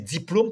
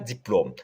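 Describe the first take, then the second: First: The o vowel is closed. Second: The o vowel is open. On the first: The speaker calls it right. "c'est diplôme parce que le O dans ce mot est surmonté d'un accent circonflexe" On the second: The speaker calls it wrong. "on ne dit pas diplôme"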